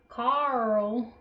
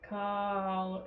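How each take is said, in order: First: The name is said in a special character voice. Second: The name is said in an ordinary voice. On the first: The speaker calls it right. "you have to say it like with the voice" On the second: The speaker calls it wrong. "if people just are like Carl, it doesn't work"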